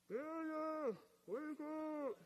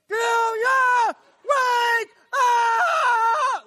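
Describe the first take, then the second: First: It is said quietly, like a faint noise. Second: It is shouted as loud as possible.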